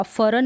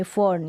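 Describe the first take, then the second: First: फरन in two syllables, "fa-ran"; wrong full-R pronunciation. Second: फर्न with the R only half sounded; half-R pronunciation. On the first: Teacher warns learners against the full R, two-syllable फरन. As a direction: sound the R in फरन completely, with a vowel after it. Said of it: "फरन नहीं बोल सकते हम". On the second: Teacher shows learners the half sound, light-R फर्न. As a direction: glide lightly through the R in फर्न, one syllable. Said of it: "आधे रूप में फर्न". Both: Shown as a demonstration.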